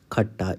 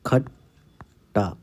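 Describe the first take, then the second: First: Said in the usual way. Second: खट्टा stretched very slowly, syllable by syllable; dictation-slow खट्टा. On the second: Shown as a demonstration. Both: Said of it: "अगला शब्द है खट्टा".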